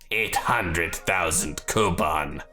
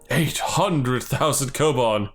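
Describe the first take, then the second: First: It is said in a menacing villain voice. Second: It is said in a plain, non-villain voice.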